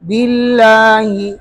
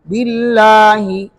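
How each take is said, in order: The two takes are said the same way.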